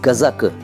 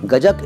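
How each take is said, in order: First: The middle consonant is a z sound. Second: The middle consonant is a j sound. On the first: The speaker calls it right. "सही उच्चारण उसका है गजक" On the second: The speaker calls it wrong. "गजक एक गलत उच्चारण है"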